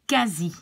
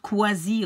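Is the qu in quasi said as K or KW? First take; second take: K; KW. First: The qu is said as a plain K sound. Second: The qu is said with the U sounded. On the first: The speaker calls it right. "you will pronounce it like quasi" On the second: The speaker calls it wrong. "and not quasi or something like that"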